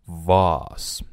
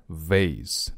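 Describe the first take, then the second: First: "vase" said with a long "ah", like "vahz"; slow demo of British "vase", rhyming with "cars"; British pronunciation. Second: "vase" said with an "ay" vowel, like "vayss"; slow demo of American "vase", vayss; American pronunciation. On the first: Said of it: "这个词呢有两种发音". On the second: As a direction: say "vase" the American way, rhyming with "face". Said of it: "vase是美式发音". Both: Shown as a demonstration.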